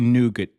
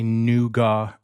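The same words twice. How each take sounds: First: It is said with a non-British pronunciation. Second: It is said with a British pronunciation. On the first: The speaker calls it right. "I say nougat" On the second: The speaker calls it wrong. "In Britain, they say nougat"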